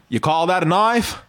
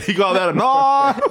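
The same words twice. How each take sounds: First: Lightly done Australian accent, broad "knife"; Crocodile Dundee. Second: Exaggerated Australian "knife" through the top jaw; top-jaw Australian accent. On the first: Shown as a demonstration. Host demonstrating for the guest, light Australian accent. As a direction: model an Australian movie line. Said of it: "try some old Crocodile Dundee". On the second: Host mimicking the guest's method, hammed-up Australian accent. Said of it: "through your top jaw".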